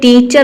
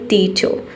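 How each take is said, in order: First: The final r sound is clearly pronounced. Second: The r is silent and the ending vowel is lengthened. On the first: The speaker calls it wrong. "आपको टीचर नहीं बोलना है" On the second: The speaker calls it right. "आपको बोलना है केवल टीचर। जो रॉ का साउंड है, यहाँ पे आपको अ का साउंड दे देना है"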